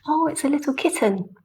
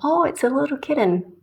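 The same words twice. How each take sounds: First: The T sounds are crisp, clear T sounds. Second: The T sounds are soft, like a D. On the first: The speaker calls it right. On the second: The speaker calls it wrong.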